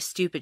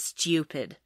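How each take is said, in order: First: It is said with an American accent. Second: It is said with a British accent. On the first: The speaker calls it wrong. "She doesn't say stupid" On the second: The speaker calls it right. "she says stupid, ... so perfect"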